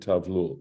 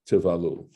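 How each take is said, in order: First: The word is said in two syllables. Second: The word is said in three syllables. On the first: The speaker calls it wrong. "I I said tavlul" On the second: The speaker calls it right. "great job today of mispronouncing words"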